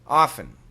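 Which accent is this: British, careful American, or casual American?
casual American. Relaxed, everyday American accent. "Typical American pronunciation"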